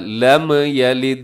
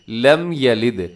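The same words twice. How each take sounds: First: The m is followed by a slight vowel sound. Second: The m is closed with no vowel after it. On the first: The speaker calls it wrong. "इसको ऐसे नहीं पढ़ना" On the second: The speaker calls it right. "हिलाना जुलाना नहीं है आपने इसको, बल्कि"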